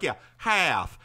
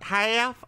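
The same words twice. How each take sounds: First: Put-on "Yeah, half." in a drawn-out Southern accent; "half" with a broad Southern vowel. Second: "Half?" asked high in a mock Jersey accent; rising "Half?" with a flat Jersey vowel. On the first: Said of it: "I put on the Southern". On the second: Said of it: "He's like".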